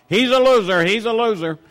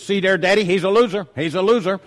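First: Higher and louder imitated child's shout; mock shout. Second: A little girl's retold call, higher and louder; child's loud call-out. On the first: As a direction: belt it out across the room, mimicking her. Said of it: "don't shout out to the whole restaurant". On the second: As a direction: pipe up loud across the restaurant like a small child. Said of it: "And they say out loud".

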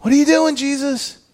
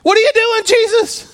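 First: Raised but softer, the question falling to a tired "Jesus"; quieter exasperated plea. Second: High, loud shout of "What are you doing"; yell at God. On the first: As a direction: ask it worn out rather than yelling. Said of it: "the rawness of Peter". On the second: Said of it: "You ever wanted to yell at God like that?". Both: Retold or imitated.

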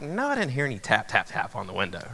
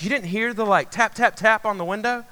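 First: Quick, quieter brush-off, dropping low; retold dismissive reply. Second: Higher-pitched imitation of an insistent girlfriend; voiced girlfriend. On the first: Boyfriend answering his girlfriend about tapping, mock dismissive. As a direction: play back an unbothered denial, falling away. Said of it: "And I was like". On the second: Girlfriend asking about taps at the window, imitated disbelief. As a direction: mimic her disbelieving question, pitched up. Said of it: "And she's like".

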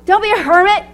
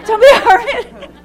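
First: "Don't be a hermit" said high and firm, teasing; a teasing order, pitched up; playful command. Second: "Don't be a hermit" repeated through laughter, higher and louder; laughing. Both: Acted.

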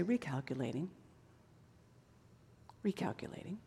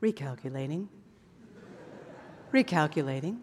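First: Very soft, low, hushed recalculating; gentle whisper-soft Spirit. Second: Low, soft, even sat-nav voice; calm GPS voice. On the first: Holy Spirit softly guiding the wanderer, hushed. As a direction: breathe it out gently. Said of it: "But the Holy Spirit will say". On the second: Preacher imitating his calm GPS, low and soft. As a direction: mimic a calm navigation voice. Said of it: "your G P S very calmly says to you". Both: Retold or imitated.

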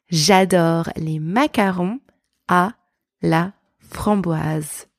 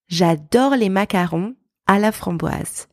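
First: French sentence broken up with pauses; careful, slow, word-group by word-group French; slow practice repeat. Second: Said in the usual way. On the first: Shown as a demonstration. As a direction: draw out each piece for learners to copy. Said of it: "Let's practice together". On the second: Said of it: "let's pronounce a few sentences".

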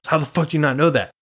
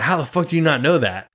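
First: Fast, raised mock retort at dad; mild mock yell back. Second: Imitating an angry dad, lightly; a hint of dad yelling, pitch up; half-hearted angry dad shout; mild mock yell. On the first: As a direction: snap it back quicker, lightly. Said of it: "the one time I said was like". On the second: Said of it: "he was so mad at me".

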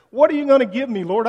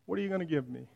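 First: Loud, high demand to God; loud frustrated plea; exasperated cry. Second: Softer, deflated repeat of the question; soft, weary plea; quiet echo. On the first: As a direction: shout the question up at God, frustrated. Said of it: "almost screams in exasperation". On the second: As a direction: say it again under your breath, worn out. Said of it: "quieter echo of the cry". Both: Acted.

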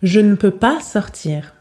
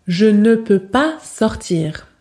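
First: "je ne peux pas sortir" with "ne" reduced to n; dropped ne. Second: "je ne peux pas sortir" slowly, with a full "ne". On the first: Teacher demonstrating the natural everyday negation. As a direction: glide over "ne", just an n. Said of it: "Prononciation réaliste". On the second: Teacher demonstrating the stiff textbook negation, slowly. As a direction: say "ne" as a whole careful syllable. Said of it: "Ce n'est pas réaliste". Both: Shown as a demonstration.

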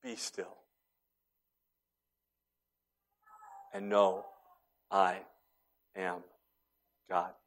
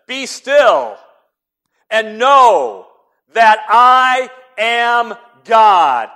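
First: Very soft, low, word by word; still small voice. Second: Very loud, high, drawn-out proclamation; booming shout. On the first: Preacher voicing God's gentle whisper, hushed and slow. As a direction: whisper it with long pauses. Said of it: "a still small voice that said". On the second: Preacher booming the verse as a shout, very loud. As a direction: thunder it out slowly. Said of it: "There wasn't a shout". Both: Shown as a demonstration.

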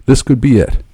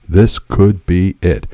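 First: Said in the usual way. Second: Slow, deliberate. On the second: A narrator's reading. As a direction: weigh each word of the thought. Repeated thought, slowed for weight.

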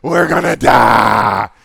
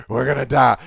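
First: Drawn-out, much louder hammed-up wail; milk the panic like a drama queen; slow loud melodramatic cry of doom; overly dramatic. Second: Mock panic, a touch louder; panicked disciples. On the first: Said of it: "Are any of you overly dramatic?". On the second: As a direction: overdramatic alarm, lightly played. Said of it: "They're like".

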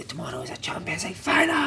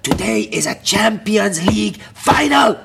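First: Half-whispered mock shout; retold shout, hushed. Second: Loud, high, drawn-out rallying cry; hyped-up manager's shout. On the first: Manager in the gym on a Friday, whispered imitation of shout. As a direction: shout it under your breath, higher and softer. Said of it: "He'd shout on a Friday". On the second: Retold or imitated. Manager rallying his players before an ordinary game, hyped-up shout. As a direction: bellow it slowly like a big announcement. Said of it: "he'd come in with the days".

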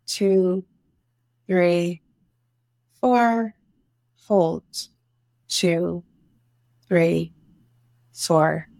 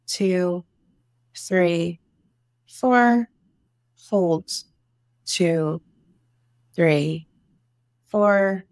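No difference in how they are said.

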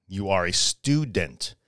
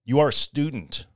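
First: Slower, lower, each word set down; You are a student said low and unhurried; slow and deliberate. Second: Said in the usual way. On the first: Shown as a demonstration. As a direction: spell out You are a student slowly so it sinks in.

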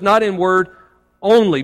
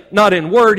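First: "Not in word only" with "only" set apart after a pause and lifted; stress on only. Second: Said in the usual way. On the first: Shown as a demonstration. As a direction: pause then hit "only". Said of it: "He says". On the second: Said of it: "he doesn't say".

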